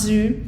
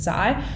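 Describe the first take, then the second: First: The name is said with an 'oo' vowel. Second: The name is said with an 'eye' vowel. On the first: The speaker calls it right. "Nope, pronounced Zoo" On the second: The speaker calls it wrong. "I was going around pronouncing it Zai"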